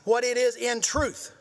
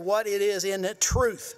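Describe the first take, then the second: First: The phrase is said with extra force and punch. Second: The phrase is said plainly, without extra force.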